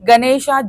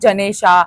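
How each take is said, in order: First: The word begins with a hard G sound. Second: The word begins with a J sound. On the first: "like G"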